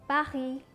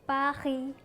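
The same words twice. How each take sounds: Both takes have the same delivery.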